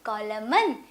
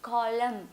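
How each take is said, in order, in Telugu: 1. ఈ పదం చివర అదనంగా n శబ్దం వస్తుంది. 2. ఈ పదం చివర m శబ్దం మాత్రమే ఉంటుంది.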